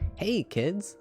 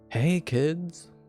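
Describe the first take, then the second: First: It sounds cheerful, not annoyed. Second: It sounds annoyed.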